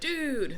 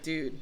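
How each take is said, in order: First: It is said with an excited tone. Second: It is said with a doubtful tone. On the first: The speaker is thrilled about something. "dude, that's exciting" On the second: The speaker can hardly believe something. "dude, really?"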